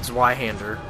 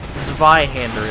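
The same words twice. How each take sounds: First: The word is said with English sounds. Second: The word is said with German sounds.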